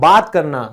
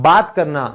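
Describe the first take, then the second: No difference in how they are said.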